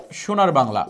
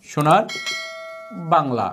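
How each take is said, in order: First: Said in the usual way. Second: "সোনার" rising alone, pause, then "Bangla" low; words split apart. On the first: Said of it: "এখন দেখেন তো, সোনার Bangla". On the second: Shown as a demonstration. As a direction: pull "সোনার" out on a rise, drop "Bangla" after a pause. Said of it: "র বিভক্তি চিহ্ন আছে না?". ("সোনার" আলাদা করে উঁচু সুরে, থেমে তারপর নিচু স্বরে "বাংলা")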